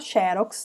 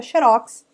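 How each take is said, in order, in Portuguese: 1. A tônica está na penúltima sílaba. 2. A tônica está na última sílaba. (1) "se tiver acento, ela pode ser uma paroxítona" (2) "se não tiver acento"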